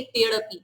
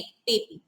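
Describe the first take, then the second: First: तेड़पी said with the ड़ sound spoken out; wrong way, with ड़. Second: तेपी said with the ड़ left silent; right way, silent ड़. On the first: Teacher showing the wrong reading तेड़पी. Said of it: "तो हम इसे ऐसे नहीं बोलेंगे". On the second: Teacher giving the correct reading तेपी, ड़ silent. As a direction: drop the ड़ and say तेपी smoothly. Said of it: "नहीं तेपी". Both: Shown as a demonstration.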